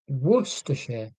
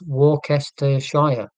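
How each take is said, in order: First: The name is shortened, with syllables dropped. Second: Every written syllable of the name is pronounced. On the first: This is how local people actually say it. "why would you go, oh yeah" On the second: This is how the spelling suggests reading it. "when you look at it phonetically, it is Worcestershire"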